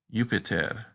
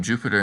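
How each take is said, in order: First: "Jupiter" with a Y sound at the start, yoo-pi-ter; Latin Jupiter. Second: Said in the usual way. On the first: Shown as a demonstration. Teacher showing Latin Jupiter with initial Y. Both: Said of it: "it is pronounced like a Y".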